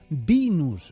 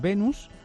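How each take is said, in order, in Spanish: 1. La palabra se dice con pronunciación inglesa. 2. La palabra se dice con pronunciación española. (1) "si es una cosa como más anglosajona" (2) "como la Venus"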